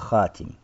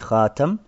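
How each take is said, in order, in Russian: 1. Второй гласный — передний 'i'. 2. Второй гласный — открытый 'a'. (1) "Остальные шесть чтений там касра" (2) "мы читаем хатам, то есть с фатхой наверху"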